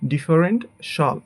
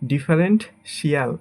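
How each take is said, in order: First: The ending is said as one syllable, shal. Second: The ending is said as two syllables, shee-al. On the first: The speaker calls it right. "But এটা হবে" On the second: The speaker calls it wrong. "এটাকে আমরা বলি"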